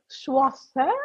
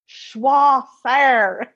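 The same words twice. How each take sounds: First: It is said with a French-sounding accent. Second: It is said with an Arkansas Southern accent.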